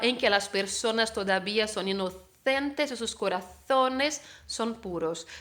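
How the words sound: The z in corazones sounds like th. It is the pronunciation of Spain. "Si pronuncias como en España"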